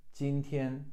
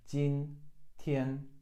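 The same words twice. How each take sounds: First: 今天 joined, both syllables high and level; teacher puts 今天 back together; whole word. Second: 今 and 天 said apart, each a level first tone; teacher spells out the tones of 今天; syllable by syllable. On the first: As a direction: say 今天 smoothly in one go. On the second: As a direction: break 今天 into two high level tones. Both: Shown as a demonstration. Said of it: "Two first tones".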